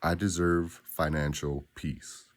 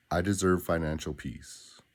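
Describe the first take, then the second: First: Slow, deliberate and certain; mean every word, slowly; with conviction. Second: Said in the usual way. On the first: Shown as a demonstration. Coach models the affirmation for the listener, slow conviction. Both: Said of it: "say it with conviction".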